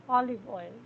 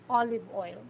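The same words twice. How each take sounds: Both takes have the same delivery.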